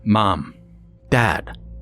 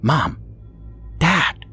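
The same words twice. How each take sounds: First: It is said in a booming voice. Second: It is said in a loud whisper.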